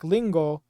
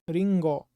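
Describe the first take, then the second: First: It starts with a clear l sound. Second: It starts with a sound between r and l. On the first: The speaker calls it wrong. "You can't be like lingo" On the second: The speaker calls it right. "sitting on the fence of R and L"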